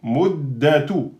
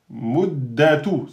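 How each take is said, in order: First: "muddatu" slowly, d held double; corrected doubled dal. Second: "muddatu" slowly with a doubled d; doubled dal. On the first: Teacher repeats the correct form for students. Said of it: "C'est pas muddatu". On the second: Teacher models the shadda for the class. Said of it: "il porte une shadda". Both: Shown as a demonstration.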